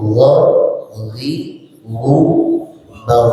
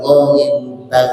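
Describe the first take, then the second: First: "gha, ghi, gu, ba" spaced out, lips rounded; lips-forward ghain. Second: "gha, ghi, gu, ba" run together with lips spread; loose, gaping "gha"; wrong open-mouthed ghain. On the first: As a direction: separate each syllable, "gha" from rounded lips. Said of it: "Tapi mono". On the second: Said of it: "bukan begitu". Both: Shown as a demonstration.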